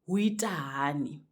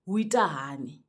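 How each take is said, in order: First: The greeting is said in a shortened form. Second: The same.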